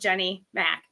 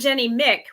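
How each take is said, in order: First: The surname has the vowel of 'Mac'. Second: The surname has the vowel of 'Mick'. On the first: The speaker calls it right. "It's Mac" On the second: The speaker calls it wrong. "which Mick isn't how it's pronounced"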